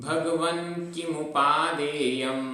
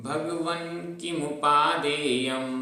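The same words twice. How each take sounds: Both takes have the same delivery.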